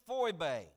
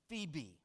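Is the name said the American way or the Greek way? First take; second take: Greek; American. First: The name is said with a Greek pronunciation. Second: The name is said with an American pronunciation. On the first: "In the Greek, it is Phoebe" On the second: "the Americanized version"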